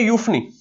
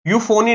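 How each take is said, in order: First: यूफनी said "yoof-nee", short with no "o" in the middle; यूफनी in two quick syllables, "yoof" then "nee"; correct pronunciation. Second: यूफोनी said "yoo-fo-nee", with a full "o" in the middle; wrong pronunciation. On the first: Teacher models the right यूफनी for students. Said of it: "इसकी भी pronunciation ध्यान रखना". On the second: Teacher shows students the wrong यूफोनी to avoid. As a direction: stretch यूफोनी into three syllables, the mistaken way. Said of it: "यूफोनी नहीं". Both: Shown as a demonstration.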